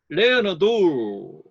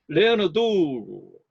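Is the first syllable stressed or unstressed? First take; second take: stressed; stressed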